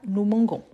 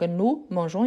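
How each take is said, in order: First: The g is hard, like the g in go. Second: The g is soft, like the s in measure. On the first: The speaker calls it wrong. "pas gon" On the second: The speaker calls it right. "les sons de jon"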